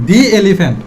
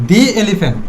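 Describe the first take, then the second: The two takes are said the same way.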